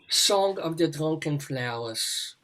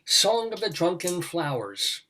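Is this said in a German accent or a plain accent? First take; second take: German; plain. First: It is read in a put-on German accent. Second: It is read in the speaker's ordinary accent.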